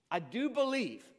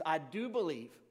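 First: Higher, louder cry of I do believe; desperate cry. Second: Desperate plea. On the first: Father on his knees before Jesus, crying out higher. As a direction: plead it harder the second time. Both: A narrator's reading. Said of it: "the father instantly cried out".

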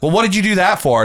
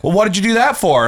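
First: Imitating a prying coworker; mocking annoying coworker. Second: High, louder nagging coworker voice; imitating a prying coworker; mocking annoying coworker. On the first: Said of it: "annoying coworker". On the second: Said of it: "someone was like". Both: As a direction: needle them like a nosy coworker.

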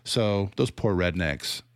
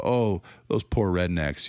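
First: Slow, drawn-out pitying tone; mock pity. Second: Drawn-out condescending sigh of pity; mock pity. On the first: Critic repeats the pitying line, slow and condescending. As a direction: savour each word with fake sympathy. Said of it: "it's super condescending". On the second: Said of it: "super condescending".

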